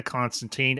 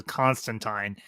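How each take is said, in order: First: Said in the usual way. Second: "Constantine" with the last syllable as "tyne"; Constantine rhyming with "wine". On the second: Retold or imitated. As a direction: say "Constantine" ending in a long i, like "wine". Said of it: "as he pronounces".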